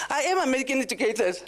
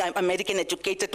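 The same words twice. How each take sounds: First: "am" pushed higher, fast and firm in "I am American educated"; playful brag with "am" stressed; proud stress on am. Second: Said in the usual way. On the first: Shown as a demonstration. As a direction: boast it, leaning hard on "am". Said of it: "stop with that bragging". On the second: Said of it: "Like Uyama said".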